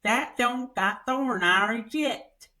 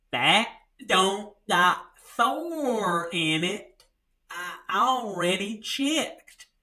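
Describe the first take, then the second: First: Lightly voiced small-town woman, a bit slow; a light take on her mumble, higher; imitating the woman. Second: Very slow, spelled-out mock small-town woman; talking slowly. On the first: Teller quotes the Redbox woman's first answer, lightly voiced. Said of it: "She goes". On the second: Redbox woman repeats it slowly to him, very slow and deliberate. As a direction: drag each word out like explaining to a child. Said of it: "She had to talk slowly to me".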